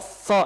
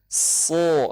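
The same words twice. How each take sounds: First: The hiss is blocked by the pressed tongue tip. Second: The hiss comes out clearly between the teeth. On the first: The speaker calls it wrong. "itu dirapetin tuh" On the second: The speaker calls it right. "ya kan keluar"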